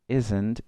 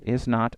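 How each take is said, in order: First: The words are run together as one syllable. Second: Both words are said in full. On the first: "es exactamente lo mismo" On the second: "Is not se puede convertir en isn't"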